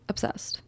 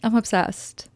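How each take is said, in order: First: Breathy whispered gush, voiceless; whispering obsessed to the camera. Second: Said in the usual way. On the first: Real, not acted. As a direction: whisper it like a secret thrill. Repeats her gush in a whisper.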